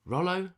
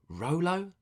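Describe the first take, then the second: First: "Rollo" with a short o, as in "doll"; high, tentative "Rollo" rhyming with "follow"; short first vowel. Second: "Rolo" with a long o, as in "roll"; high, tentative "Rolo" rhyming with "solo"; long first vowel. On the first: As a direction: try "Rollo" as ROL-oh, high and questioning. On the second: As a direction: try "Rolo" as ROH-loh, high and questioning. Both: Shown as a demonstration. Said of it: "Is it Rollo or Rolo?".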